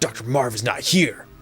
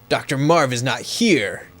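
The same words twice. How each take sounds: First: It is read in an imitation of Snake's voice. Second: It is read in the speaker's own voice.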